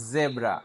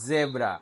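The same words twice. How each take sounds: The two takes are said the same way.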